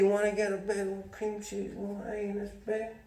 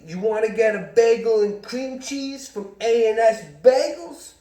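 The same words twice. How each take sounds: First: The loudness fades out as the sentence goes on. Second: The loudness stays steady through the whole sentence. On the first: The speaker fears someone is listening in. The speaker calls it wrong. "He'd say it like this" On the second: The speaker is not worried about being overheard. The speaker calls it right. "how like a normal person says it"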